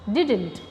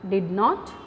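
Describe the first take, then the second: First: It is said as one contracted word. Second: It is said as two full words. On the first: The speaker calls it right. "it is didn't" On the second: The speaker calls it wrong. "it is not did, did not"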